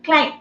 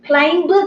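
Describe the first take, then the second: First: The final b sound is silent. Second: The final b sound is pronounced. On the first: The speaker calls it right. "B is silent. You should not pronounce this B" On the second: The speaker calls it wrong. "Climb கிடையாது"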